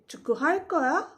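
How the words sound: The pitch rises at the end. It asks whether you will play soccer. "to ask this as a question"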